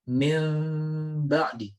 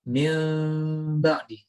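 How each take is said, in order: First: The m is hidden with lips lightly touching. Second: The m is hidden with lips lightly touching.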